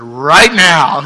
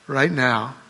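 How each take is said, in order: First: Louder, punched; Jesus could have said it, loud and eager; emphatic call. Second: Said in the usual way. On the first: Shown as a demonstration. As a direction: snap it out with excitement. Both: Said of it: "He could have said".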